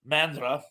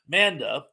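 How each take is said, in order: First: An R sound follows the N and D. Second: No R sound follows the N and D. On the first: The speaker calls it wrong. "I believe I'm mispronouncing it, I don't think there's an R there" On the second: The speaker calls it right. "I think it's Manda"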